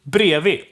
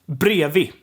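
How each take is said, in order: First: The d sounds are left out. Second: The same.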